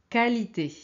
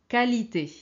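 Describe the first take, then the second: Both takes have the same delivery.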